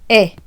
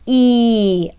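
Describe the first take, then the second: First: The vowel is short, like in end. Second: The vowel is long, like its letter name. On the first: "as in end" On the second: "a long vowel means that the letter says its name"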